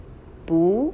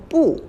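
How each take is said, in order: First: 不 said as a rising bu. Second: 不 as bu, sharp falling fourth tone. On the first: Teacher contrasting tones, rising take. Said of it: "a rising tone". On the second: Teacher contrasting tones, falling take. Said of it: "the falling tone". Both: Shown as a demonstration.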